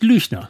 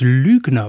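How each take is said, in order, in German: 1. Der mittlere Konsonant ist ein weicher ch-Laut. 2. Der mittlere Konsonant ist ein harter g-Laut. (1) "Nicht Lüchner" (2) "das G nach einem Vokal als ein G oder ein K gesprochen wird"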